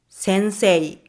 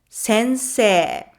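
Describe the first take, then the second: First: The second syllable ends in a separate e-i sound. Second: The second syllable ends in a long e sound. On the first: The speaker calls it wrong. "You might try to say it as sensei" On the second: The speaker calls it right. "in everyday conversation, it's a long e"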